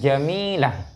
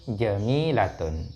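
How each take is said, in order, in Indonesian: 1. Kata ini berakhir dengan -ah, tanpa akhiran -tun. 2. Kata ini berakhir dengan -atun, dengan akhiran lengkap. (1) "ketika diwakafkan dibaca jamilah" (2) "kalau tidak diwakafkan jamilatun"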